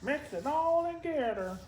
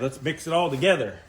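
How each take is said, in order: First: It is said in a put-on character voice. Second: It is said in an ordinary speaking voice.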